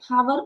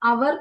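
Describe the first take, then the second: First: The word starts with an h sound. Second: The word starts with a vowel sound. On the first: The speaker calls it wrong. "ഹവർ എന്നല്ല വായിക്കുക" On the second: The speaker calls it right. "അവർ എന്നാണ് പറയാ"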